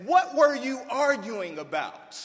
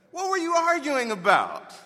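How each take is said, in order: First: Louder, higher, pointed question; Jesus calling out his disciples loudly; demanding question. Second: Louder and higher still, leaning on WERE; Jesus pressing his disciples with rising force; stronger demand. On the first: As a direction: confront them like a teacher who already knows. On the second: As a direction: push harder, already knowing the answer. Repeated for emphasis. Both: Retold or imitated.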